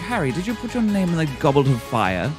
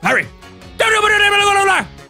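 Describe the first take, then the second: First: The question is asked calmly and quietly. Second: The question is shouted angrily and urgently.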